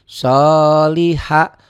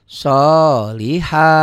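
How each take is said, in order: No difference in how they are said.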